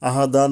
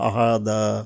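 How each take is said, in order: First: The word ends with an n sound. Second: The word ends on a vowel, without n. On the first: The speaker calls it wrong. "আহাদান না বলে" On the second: The speaker calls it right. "আহাদা বলতে পারি আমরা"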